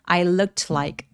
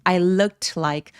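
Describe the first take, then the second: First: Said slowly with the t lightly sounded. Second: The same.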